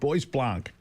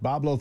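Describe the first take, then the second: First: The name is said following its spelling. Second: The name is said as 'Boblo'. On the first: This is how an outsider would guess it from the spelling. The speaker calls it wrong. "I would have said" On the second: This is how the name is actually said. The speaker calls it right. "it was pronounced Boblo"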